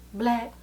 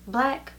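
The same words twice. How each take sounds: The two takes are said the same way.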